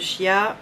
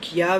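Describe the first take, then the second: First: The word begins with a sh sound. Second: The word begins with a k sound. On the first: "vous dites comme vous voulez" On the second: "vous dites comme vous voulez"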